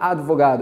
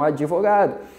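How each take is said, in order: First: It is said with no vowel between d and g. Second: An extra i sound is added between d and g. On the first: The speaker calls it wrong. "Ninguém fala advogado" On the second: The speaker calls it right. "o porto-alegrense já fala muito mais com i"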